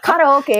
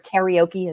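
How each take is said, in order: First: It is pronounced the Japanese way. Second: It is pronounced the usual English way. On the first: "as the Japanese way to say it" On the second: "as some people pronounce it"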